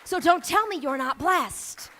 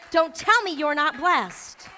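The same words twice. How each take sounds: First: Said in the usual way. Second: Don't tell me you're not blessed, slower, leaning on tell; slow, deliberate repeat; slower emphatic repeat. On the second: Shown as a demonstration. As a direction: stretch it out and hit tell.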